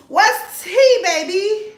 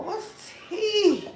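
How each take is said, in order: First: Much higher and louder, calling out to viewers; playful gossip call, raised voice; loud excited call. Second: Said in the usual way. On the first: Real, not acted. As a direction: belt "What's tea" up to the chat. Repeats question, louder second time.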